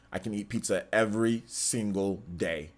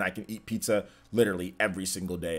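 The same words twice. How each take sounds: First: "every single day" slowed, each word set apart; emphatic repeat. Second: Said in the usual way. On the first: Real, not acted. Streamer insisting on his love of pizza, slow stress on "every single day".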